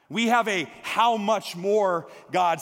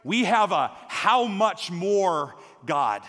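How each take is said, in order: First: Slow, "have" hit first, tune rising; stress on have. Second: Slow, "how" pressed hard, falling tune; stress on how. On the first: Preacher repeating the refrain to the church, stress on "have". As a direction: punch "have" and lift the end. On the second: Preacher proclaiming God's abundance, stress on "how". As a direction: lean slowly on "how". Refrain repeated with shifting stress. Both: Shown as a demonstration.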